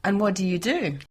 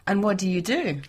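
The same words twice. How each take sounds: The two takes are said the same way.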